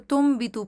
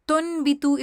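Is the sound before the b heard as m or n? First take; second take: m; n. First: A nasal m sound comes before the b. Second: A clear n sound comes before the b. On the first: The speaker calls it right. "इसको तुम भी तू पढ़ेंगे" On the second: The speaker calls it wrong. "इसको नहीं पढ़ेंगे"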